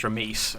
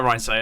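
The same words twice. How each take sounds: First: Reims anglicised as "Ramis"; English pronunciation. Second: Reims as "Ryan say"; learned pronunciation. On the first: Caster explaining the English reading to chat, anglicised pronunciation. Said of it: "in English, it would be pronounced". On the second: Caster showing chat he gets it, learned pronunciation. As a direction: say "Ryan say" as the newly learned name. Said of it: "I get it now". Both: Shown as a demonstration.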